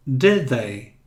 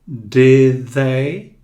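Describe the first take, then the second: First: "Did they" run together, the d flowing into the th; calm repeat of the link; linked d into th, softer. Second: "Did they" run together, the d blending into the th; smooth link between the words. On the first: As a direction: link the d and th smoothly. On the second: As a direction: join the d to the th with no break. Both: Shown as a demonstration. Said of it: "você emenda este D com este D".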